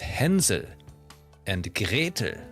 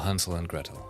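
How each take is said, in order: First: The name is said with a German pronunciation. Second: The name is said with an English pronunciation. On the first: "if you want to be really like German fairy tale accurate" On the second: "exactly the way like English-speaking people like to do so"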